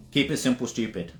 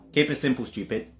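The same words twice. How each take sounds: The two takes are said the same way.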